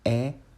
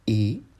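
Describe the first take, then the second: First: The vowel is said with an open mouth. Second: The vowel is said with a closed mouth. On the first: "O som aberto, aperto, da vogal E seria como E" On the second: "o som fechado da vogal E seria E"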